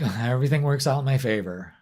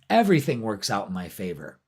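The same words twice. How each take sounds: First: It is said weakly, without conviction. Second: It is said firmly, with conviction. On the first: The speaker does not really believe it. The speaker calls it wrong. "just don't say it like" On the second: The speaker truly believes it. The speaker calls it right. "you have to say it with conviction"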